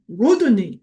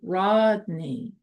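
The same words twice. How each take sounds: First: The D sound is heavy and overemphasized. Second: The D sound is soft and light. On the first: The speaker calls it wrong. "too much emphasis on the D sound and say Rodney, Rodney, like that" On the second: The speaker calls it right. "It's supposed to be Rodney. You notice the soft D"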